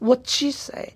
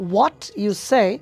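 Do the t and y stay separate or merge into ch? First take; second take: merge; separate. First: The t and y merge into a ch sound. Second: The t and y sounds stay separate. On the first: "টি এর পরে যদি এরকম ওয়াই থাকে তাহলে টিটা চয়ের মতো হয়ে যায়" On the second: "আমি আসলে বলেছি what you say is not right"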